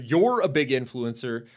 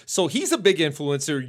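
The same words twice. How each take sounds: First: You're given the main weight of the line; stress on You're. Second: Said in the usual way. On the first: Real, not acted. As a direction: lean on You're to correct yourself. Corrects himself to address her.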